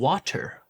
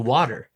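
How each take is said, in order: First: The middle T is a crisp, full T. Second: The middle T is a soft, D-like flap.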